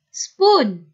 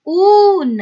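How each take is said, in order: First: Said in the usual way. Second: Sp-oon split apart, the oon higher and louder; split into sounds. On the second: Shown as a demonstration. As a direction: sound out sp then a stretched oon. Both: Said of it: "The next one".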